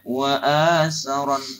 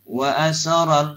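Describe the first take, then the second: First: The long vowel is held long. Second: The long vowel is cut short. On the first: The speaker calls it right. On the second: The speaker calls it wrong. "yang panjang baca pendek"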